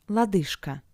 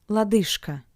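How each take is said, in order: The two takes are said the same way.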